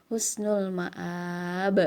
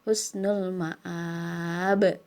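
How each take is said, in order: Both takes have the same delivery.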